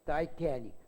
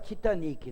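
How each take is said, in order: First: It is said the American English way. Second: It is said the usual Brazilian way. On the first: This is how it is said in the United States. "É assim que tem que falar. ... isso é lá nos Estados Unidos" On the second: This is how people in Brazil commonly say it. "todo mundo fala Titanic"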